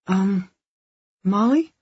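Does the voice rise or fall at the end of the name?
rise. It is said as a question, rising. The speaker is unsure of the answer. The speaker calls it wrong. "Not like that. It's an answer, not a question"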